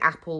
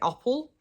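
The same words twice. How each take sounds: First: It is said with a standard 'a' vowel. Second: It is said with an 'o'-like first vowel. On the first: "instead of saying apple" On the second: "we'll say apple. So sometimes we use an O for an A"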